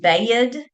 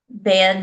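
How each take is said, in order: First: The word is drawn out into two syllables. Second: The word is short with one syllable. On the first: This is how an older relative said it. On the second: This is the standard way to say it.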